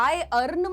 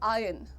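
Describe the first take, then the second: First: The r sound is clearly pronounced. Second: The r sound is dropped. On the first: The speaker calls it wrong. "मत बोलो" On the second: The speaker calls it right. "But तुम आर को दबा दो"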